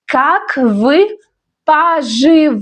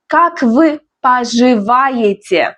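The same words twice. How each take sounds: First: Как вы, pause, поживаете syllable by syllable; pronunciation demo. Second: Said in the usual way. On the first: Shown as a demonstration. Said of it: "Let's learn pronunciation". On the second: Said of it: "That's a formal way".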